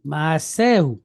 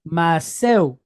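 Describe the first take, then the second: First: "Maseu" as ma-SE-hu, with the h sounded; non-native pronunciation. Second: "Maseu" Israeli style, with the h dropped; Israeli pronunciation. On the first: Teacher models it for non-native learners, "Maseu" with a sounded h. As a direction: keep an aspirated h before the final "u" of "Maseu". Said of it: "we're not native speakers". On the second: Teacher shows how Israelis say it, "Maseu" without the h. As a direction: run "se" into "u" in "Maseu", no aspirated h. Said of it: "pronouncing it in an Israeli fashion". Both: Shown as a demonstration.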